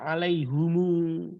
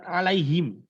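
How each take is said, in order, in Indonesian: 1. Kata ini berakhir dengan bunyi 'humu' yang lebih panjang. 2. Kata ini berakhir dengan bunyi 'him' yang pendek. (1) "Sebagian suku membacanya alaihumu" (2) "Contoh perbedaan dialek misalnya kalimat alaihim"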